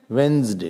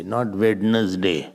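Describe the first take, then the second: First: "Wednesday" as wenz-day; right Wednesday. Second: "Wednesday" dragged out as wed-nes-day; slow over-spelled "Wednesday"; wrong Wednesday, slowly. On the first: Teacher models the right "Wednesday". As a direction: clip "Wednesday" to two syllables. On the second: Teacher slowly mocks the wrong "Wednesday". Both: Shown as a demonstration.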